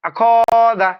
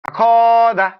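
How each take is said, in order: Both takes have the same delivery.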